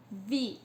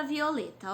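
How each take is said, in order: First: "Violeta" in four separate beats, vi, o, le, ta; long pauses inside "Violeta"; syllable by syllable. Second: Said in the usual way. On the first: Shown as a demonstration. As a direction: sound out "Violeta" as VI... O... LE... TA. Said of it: "Eu separei as sílabas". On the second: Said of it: "a gente vai fazer a divisão silábica".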